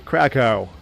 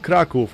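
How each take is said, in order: First: The name is said the American way. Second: The name is said the Polish way.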